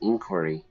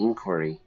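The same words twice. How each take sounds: First: The word is said with an American pronunciation. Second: The word is said with an American pronunciation.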